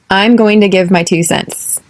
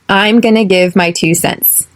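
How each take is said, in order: First: The words going to are said in full. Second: The words going to are reduced to gonna.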